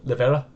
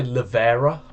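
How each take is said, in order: First: "Lavera" with Italian vowels and lilt; Italian accent. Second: "Lavera" said the plain English way. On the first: Showing how he says the pizza place: Italian-accented "Lavera". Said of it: "try and do an impression here". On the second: To friend, contrasting how people say it: plain "Lavera". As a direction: say "Lavera" like locals do. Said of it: "people would say". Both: Shown as a demonstration.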